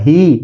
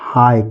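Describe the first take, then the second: First: The vowel sounds like 'ee'. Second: The vowel sounds like 'eye'. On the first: The speaker calls it wrong. "ही नहीं" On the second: The speaker calls it right. "ये लिखा हुआ है हाय"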